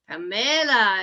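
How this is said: The name is said with Spanish pronunciation. "but like in Spanish, Pamela"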